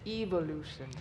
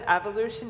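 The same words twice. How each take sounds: First: The first syllable sounds like 'evil'. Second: The first syllable sounds like 'ev'. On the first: "it sounds like evil" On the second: "instead of evolution"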